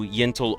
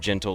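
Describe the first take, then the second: First: The name begins with a Y sound. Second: The name begins with a J sound. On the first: "I just see the Y" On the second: "like Gentle and Gentleman"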